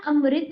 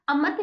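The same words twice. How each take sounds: First: अमृत as am-rit; अमृत with a clear r in it; correct pronunciation. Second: अमत as a-mat, without r; अमत missing its ri vowel; wrong pronunciation. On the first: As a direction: sound the ri after m in अमृत. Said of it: "होता है". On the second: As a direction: say अमत with plain 'ma'. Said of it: "नहीं होता". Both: Shown as a demonstration.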